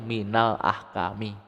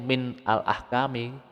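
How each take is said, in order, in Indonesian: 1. Min dan al menyatu menjadi minal. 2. Min dan al diucapkan sebagai kata terpisah. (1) "bacanya itu" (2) "ini aslinya itu"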